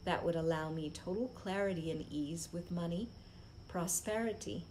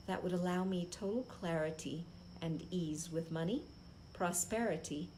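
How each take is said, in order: Both takes have the same delivery.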